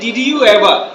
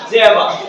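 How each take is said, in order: First: Each word is said fully and separately. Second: The words are squeezed into two short syllables. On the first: This is how non-native learners say it. "আমরা বলি যে" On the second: This is how native speakers say it. "ওরা বলে যে জেবা"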